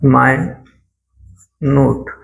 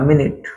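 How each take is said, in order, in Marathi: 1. पहिला अक्षर 'my' सारखा वाजतो. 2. पहिला अक्षर 'min' सारखा वाजतो. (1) "मायनूट मायनूट असा उच्चार केला" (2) "मिनिट म्हणजे वेळेसंबंधी"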